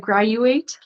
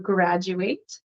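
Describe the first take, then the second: First: The middle consonant is a very soft d. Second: The middle consonant is a clear j sound. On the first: The speaker calls it wrong. "I heard a graduate, like it was a, a very soft" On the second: The speaker calls it right. "it is a J sound. So graduate"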